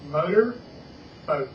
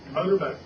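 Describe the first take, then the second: First: It is said slowly, split into two parts. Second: It is said fast as one word.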